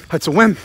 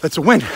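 No difference in how they are said.

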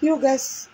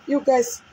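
The two takes are said the same way.

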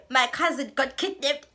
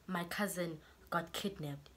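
First: Loud, higher mocking echo of his excuse; incredulous loud repeat. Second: Slow, softer reading of his excuse; mild quiet quote. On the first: Real, not acted. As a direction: throw his excuse back loudly in disbelief. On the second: Retold or imitated. Quoting his excuse text.

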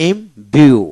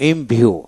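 First: Imview in two separated beats; split syllables. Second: Said in the usual way. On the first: Shown as a demonstration. Teacher shows learners the syllables, saying imview in two parts. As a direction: pause between "im" and "view" in imview. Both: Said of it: "এইভাবে".

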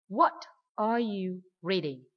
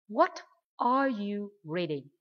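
First: What are you reading, slowly, what and reading stressed; nhấn mạnh what và reading. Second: What are you reading with what and reading slowly stressed; nhấn mạnh what và reading. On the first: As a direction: punch what, then reading. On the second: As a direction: hit the question word what, lean on reading. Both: Shown as a demonstration. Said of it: "đọc mạnh hơn vào từ để hỏi what".

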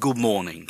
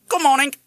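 First: Said in the usual way. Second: High, loud parrot voice; parrot mimic. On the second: A narrator's reading. Parrot echoing the father's greeting, squawky mimic.

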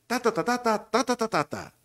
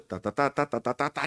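First: High, rhythmic ta-ta melody; producer's demonstrated intonation. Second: Miss the tune, staying near usual pitch on "ta"; failed copy of intonation. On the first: Producer showing the announcer the tune, high sing-song demo. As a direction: chant the tune on "ta", pitched well up. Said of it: "Por dar un ejemplo, él". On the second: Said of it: "Y yo estaba haciendo el". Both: Shown as a demonstration.

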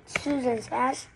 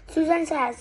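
First: Understated snort of disbelief, drawn out; scornful echo. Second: Said in the usual way. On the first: A narrator's reading. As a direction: echo it back with mild disdain. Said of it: "Henry snorted".

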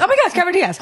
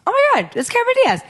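First: High excited retelling; a second starstruck gasp. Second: High, fast starstruck squeal; breathless fan excitement; starstruck gasp. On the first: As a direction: relive the shock of spotting her. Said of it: "I'm like". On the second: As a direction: blurt it out in shock at a celebrity. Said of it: "and I was like". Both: Retold or imitated.

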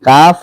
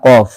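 First: কাফ with an ordinary light "k" and open "aa"; drawn-out "kaaf", plain front k; light natural কাফ. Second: কফ with a deep throaty "q" and rounded "o"; drawn-out "qawf" from the back of the throat; heavy-throated কফ. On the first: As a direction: say কাফ naturally, no weight in the throat. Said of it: "কাফের উচ্চারণটা হবে আমাদের স্বাভাবিকভাবে". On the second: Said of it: "কফের উচ্চারণ একটু গলাটা ভারী করে". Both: Shown as a demonstration.

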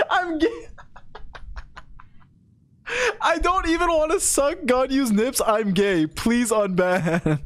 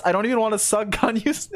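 First: High wailing start, sinking into laughter; mock tearful plea. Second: Said in the usual way. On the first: Streamer re-reading a banned viewer's appeal, mock tearful pleading. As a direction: beg in a hammed-up sob, dragging the last words.

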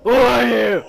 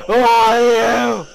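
First: Loud demand. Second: Slow, very loud "Who are you"; drawn-out yell. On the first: Startled by a stranger in game. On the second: Player demanding a stranger's identity, long loud yell. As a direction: bellow it, stretching each word. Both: Real, not acted.

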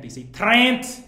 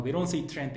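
First: "Trent" said slow, louder and higher, with a Liverpool vowel; Liverpool pronunciation. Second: Said in the usual way. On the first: Retold or imitated. Mocking the Liverpool way of saying "Trent" to friends, slow and loud. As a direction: imitate how Liverpool people say "Trent".

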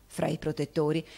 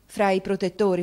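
First: Said in the usual way. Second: Fra i protettori as a rising question, louder; questioning echo. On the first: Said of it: "E il fatto sta". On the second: Acted. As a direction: ask it back, Fra i protettori, with a lift at the end. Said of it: "Disse Nicola".

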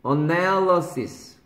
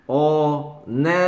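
First: "어넬러시스" as one word, 넬 lifted, then falling; "어-넬-러시스" connected, stress on the 넬; joined-up, second-syllable stress. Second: "어넬러시스" broken into five slow, separate syllables; drawn-out "어… 넬… 러… 시… 스"; syllable-by-syllable dictation. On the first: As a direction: run "어넬러시스" together and lean on 넬. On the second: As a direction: dictate "어, 넬, 러, 시, 스" one at a time. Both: Shown as a demonstration. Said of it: "발음 쓰자".

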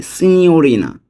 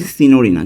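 First: সিনিয়রিনা with a "ny" glide, "si-nyo-ri-na"; correct pronunciation. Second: সিনিয়রিনা with a plain n, "si-no-ri-na"; as written. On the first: Teacher correcting the written form for learners, সিনিয়রিনা drawn out as "sinyorina". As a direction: draw out সিনিয়রিনা with a clear "nyo". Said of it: "কিন্তু উচ্চারণটা হবে". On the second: Teacher reading the written form to learners, সিনিয়রিনা as flat-n "sinorina". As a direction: say সিনিয়রিনা quickly without the "ny" glide. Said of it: "আমরা উচ্চারণটা লিখি". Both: Shown as a demonstration.

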